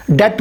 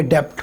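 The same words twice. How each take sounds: First: डेट with silent b; डेट said plain, no b sound; correct debt. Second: डेब्ट with the b sounded; डेब्ट, b pronounced before t; wrong debt. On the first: Teacher modelling डेट for students. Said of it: "डेट pronounce करेंगे". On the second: Teacher showing the wrong डेब्ट. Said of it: "ना कि डेब्ट". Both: Shown as a demonstration.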